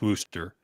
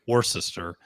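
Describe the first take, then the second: First: The word is said in its short, reduced form. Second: The word is said with every written syllable. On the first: This is how locals actually say the name. "the seven is pronounced Worcester" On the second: This follows the written form of the name. "even though it's spelled Worcester"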